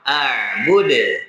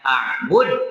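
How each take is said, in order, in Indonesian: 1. Konsonan akhir dilepas dengan pantulan yang jelas. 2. Konsonan akhir berhenti datar tanpa pantulan. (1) "Harus dipantulkan" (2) "kalau cara bacanya a'bud itu salah"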